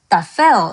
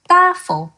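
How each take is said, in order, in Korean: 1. 강세는 마지막 음절에 있어요. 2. 강세는 첫 번째 음절에 있어요. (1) "tafel 이라고 읽지 않았고" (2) "tafel 이라고 읽었죠. 악센트가 맨 뒤에 가 있지 않고 그 앞에 있어요"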